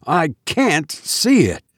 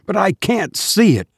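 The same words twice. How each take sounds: First: Slower, shaken repeat of see; slow down on see, horrified; repeating it in disbelief; frightened repeat. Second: High, panicked insistence on see; desperate cry to Hammond; terrified cry. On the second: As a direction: stress see in rising fear. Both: A narrator's reading. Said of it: "I cried".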